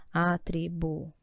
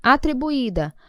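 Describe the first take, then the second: First: "Atribuída" slow and low, syllable by syllable; split into syllables. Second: Said in the usual way. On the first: Shown as a demonstration. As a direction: spell out the beats a, tri, bu, í, da with gaps. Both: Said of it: "Vai separar".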